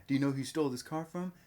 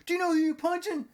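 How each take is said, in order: First: Said in the usual way. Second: High, loud indignant squawk; outraged punched thug. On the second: Acted. Thief punched by shop owner, high hammed-up outrage. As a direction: fire it out high and fast.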